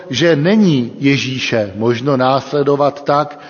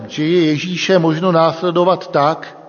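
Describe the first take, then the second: First: NENÍ picked out with a pitch swell; emphatic "není", the rest as usual; stress on NENÍ. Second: Said in the usual way. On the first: Real, not acted. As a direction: correct yourself, leaning firmly on "není". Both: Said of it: "lépe řečeno".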